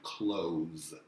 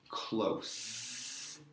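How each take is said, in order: First: The word ends with a buzzing Z sound. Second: The word ends with a hissing S sound. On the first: It means to shut. "I pronounce that final S as a Z sound" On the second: It means near. "S sound at the end"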